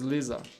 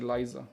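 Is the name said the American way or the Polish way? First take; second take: Polish; American. First: The name is said with a Polish pronunciation. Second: The name is said with an American pronunciation. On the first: "Polish Polish pronunciation is" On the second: "in U S you would say"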